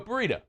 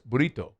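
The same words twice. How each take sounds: First: It is said with an American English pronunciation. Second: It is said with a Spanish-style pronunciation. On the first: "But we go burrito" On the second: "That's not the word. It's burrito"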